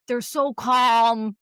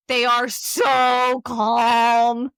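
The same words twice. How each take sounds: First: Slow, soothing therapist calm; drawn-out calm like a therapist. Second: Calm therapist voice. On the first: Friend describing therapists, slow calm. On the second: Mimicking therapists' cadence, very slow calm. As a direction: stretch each word like a soothing therapist. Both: Shown as a demonstration. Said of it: "His tone of voice".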